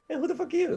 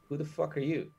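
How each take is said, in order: First: It sounds warm and friendly. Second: It sounds hostile and confrontational.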